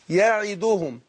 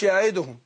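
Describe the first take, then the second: First: يعدهم said jaʕiduhum with a clear short i after the ain; correct recitation. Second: يعدهم with the vowel after the ain slurred away; wrong recitation. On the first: Teacher to student showing the right reading of يعدهم, ya-ʕi-du-hum. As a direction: recite يعدهم as ya-ʕi-du-hum, every vowel distinct. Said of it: "الصحيح اللي قرأناه على مشايخنا، أقول يعدهم". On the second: Teacher to student mimicking the wrong يعدهم, vowel slurred. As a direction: show the mistaken يعدهم, ain and i run together. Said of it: "ما أقولش يعدهم". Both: Shown as a demonstration.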